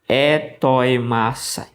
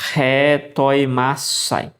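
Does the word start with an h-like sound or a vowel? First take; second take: vowel; h sound. First: The word begins directly with a vowel. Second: The word begins with a light h-like breath. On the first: The speaker calls it wrong. "Por que que você não lê é, Etoi Masai?" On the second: The speaker calls it right. "você lê como H ou então um R bem fraquinho"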